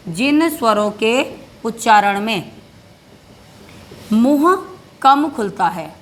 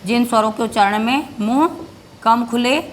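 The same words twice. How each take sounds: First: Slow dictation, pausing between phrases; dictation pace. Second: Said in the usual way. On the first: Shown as a demonstration. Teacher dictates the definition, slow and paused. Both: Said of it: "परिभाषा भी लिखनी पड़ेगी आपको".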